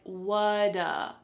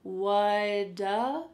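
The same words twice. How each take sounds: First: The words blend into one short word. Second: The words blend into one short word.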